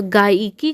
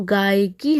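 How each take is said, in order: First: गायिकी said as "gaa-i-kee"; three syllables, "gaa-i-kee", for गायिकी; wrong form. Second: गायिकी said as "gaay-kee"; correct form. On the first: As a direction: separate i in the middle of गायिकी. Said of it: "जो हमारा ये अशुद्ध रूप है". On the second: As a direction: glide गायिकी together, no separate i. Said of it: "हमारा शुद्ध रूप हो जाएगा". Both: Shown as a demonstration.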